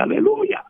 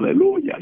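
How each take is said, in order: First: High parrot squawk echoing aleluya. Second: High chirpy aleluya; teaching the parrot. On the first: Parrot repeating the family's aleluya, squawky high. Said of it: "Y él decía". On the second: Family teaching the parrot to say aleluya, high chirp. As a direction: call it up high to the bird. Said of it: "nosotros le decíamos". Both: Retold or imitated.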